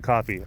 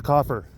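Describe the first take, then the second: First: Said in the usual way. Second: "coffer" ending in an r sound; mispronounced word. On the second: Retold or imitated. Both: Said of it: "someone mispronounces a word".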